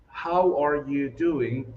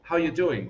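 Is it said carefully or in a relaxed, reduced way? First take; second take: carefully; reduced. First: Each word is said fully and carefully. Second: The words are run together and reduced.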